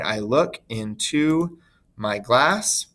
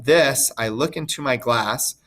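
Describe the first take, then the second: First: "I look into my glass" said very slowly, beats marked out; scanned slowly. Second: Said in the usual way. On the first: Shown as a demonstration. Teacher scanning the line for her students, slow and beat by beat. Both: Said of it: "feet of two beat".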